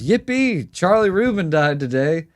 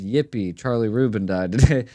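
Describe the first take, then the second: First: The first word sounds like a joyful cheer. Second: The first word sounds like a plain flat label. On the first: The speaker is glad about the death. The speaker calls it wrong. "he reads, he goes" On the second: The dead man was a member of the Yippies. The speaker calls it right. "that was supposed to read"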